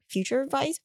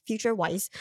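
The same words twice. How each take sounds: First: Said in the usual way. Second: Vice said as "Waiss", German w sound; German pronunciation. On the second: Shown as a demonstration. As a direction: say "Future Vice" with Vice as German "Weiss". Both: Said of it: "Did you go German?".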